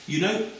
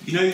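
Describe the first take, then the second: First: Put-on high, breezy quoted voice, accent left out; a lightly voiced student, pitched high; high chatty student voice without the accent; young American woman, no accent. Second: Said in the usual way. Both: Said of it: "I won't do the American accent".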